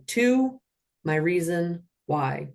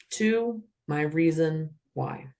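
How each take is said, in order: First: Slow, deliberate official cadence; measured robotic call. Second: Slow, steady robotic call; even mechanical cadence. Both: Shown as a demonstration. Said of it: "like a robot with this cadence".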